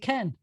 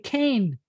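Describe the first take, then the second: First: The vowel is a short 'eh' sound. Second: The vowel is a long 'ay' sound. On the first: The speaker calls it right. "They're going to say Ken" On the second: The speaker calls it wrong. "I learned to say cane"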